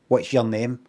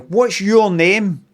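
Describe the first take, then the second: First: 'Your' is reduced, sounding like 'yeah'. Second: 'Your' is said fully, sounding like 'you'. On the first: "which is said as "yeah."" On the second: "Kind of you, you, like that"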